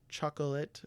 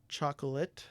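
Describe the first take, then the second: No difference in how they are said.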